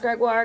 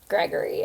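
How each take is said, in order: First: The name is said the French way, ending -wahr. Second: The name is said the English way, like Gregory. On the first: Anyone who knows a little French says it this way. The speaker calls it right. "pronounced Gregoire because it's O I R E" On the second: People who don't know French say it this way. The speaker calls it wrong. "really hard for people to pronounce"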